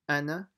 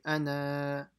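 First: The final vowel is kept short. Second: The final vowel is stretched long. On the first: The speaker calls it right. "So you ignore the alif" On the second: The speaker calls it wrong. "So you don't stretch the nun. So you don't say ana"

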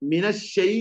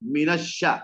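First: The sh sound is followed by an ai vowel. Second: The sh sound is followed by an a vowel. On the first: The speaker calls it wrong. "മിനശ്ശൈ അല്ല" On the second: The speaker calls it right. "ഷീൻ ഫത്ഹാണ്"

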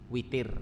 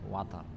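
First: The first vowel is a close 'i'. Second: The first vowel is an open 'a'. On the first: This is the reading of another recitation tradition. "di qiraah yang lain dibaca al-witar, witir" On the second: This is the reading of one recitation tradition. "dalam qiraah Imam Hafiz itu dibaca watar"

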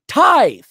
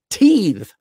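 First: The vowel is an eye sound. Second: The vowel is a long ee sound. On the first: The speaker calls it right. "No, tithe" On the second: The speaker calls it wrong. "he's pronounced it teeth"

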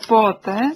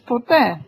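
First: The stress is on the first syllable. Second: The stress is on the second syllable. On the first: It asks when. "zadajemy pytanie po te, tak, akcent na pierwszej" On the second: It means never. "Możemy odpowiedzieć po te, nigdy, akcent na drugiej"

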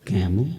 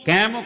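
First: It is spoken at a low, calm pitch. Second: It is spoken at a high, raised pitch. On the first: This is how the speaker talks now. The speaker calls it right. "ਹੁਣ ਮੈਂ ਚੱਕਦਾ" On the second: This is how the speaker used to talk. The speaker calls it wrong. "ਮੇਰੀ ਅੱਗੇ ਸੁਰ ਸੀ"

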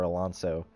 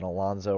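First: The middle consonant is a hissing s sound. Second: The middle consonant is a buzzing z sound.

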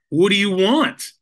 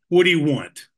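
First: It is said angry and questioning together. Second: It is said in an angry tone.

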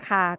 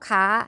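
First: The syllable is said on a level mid tone. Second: The syllable is said with a high tone. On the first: "ก็เป็นเสียงสามัญ" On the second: "จะออกเสียงเป็นเสียงตรี"

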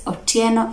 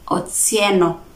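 First: The name has a plain t sound. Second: The name has a ts sound. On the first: This is the Luo form of the name. "Otieno among the Luos" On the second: This is the Luhya form of the name. "Otsieno among the Luhyas"

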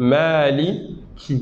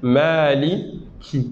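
First: The k carries a light flow of air. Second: The k carries a light flow of air.

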